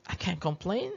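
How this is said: It sounds flat and noncommittal. Things could be worse. "Jadi itu netral"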